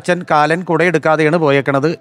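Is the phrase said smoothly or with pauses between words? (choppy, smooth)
choppy. The phrase is broken up with pauses between words. Father left without taking Death along. The speaker calls it wrong. "അത് നിർത്തി പറഞ്ഞാൽ"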